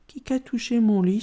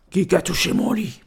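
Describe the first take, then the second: First: Lightly voiced middle bear, mild questioning cry; middle bear's outcry. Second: Growly big-bear voice; big bear's outcry. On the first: Médio Ours echoes the big bear, mild outcry. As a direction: echo the big bear in a plainer voice. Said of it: "s'escria à son tour Médio Ours". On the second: Grand Ours finds his bed touched, growled outcry. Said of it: "s'escria Grand Ours". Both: A narrator's reading.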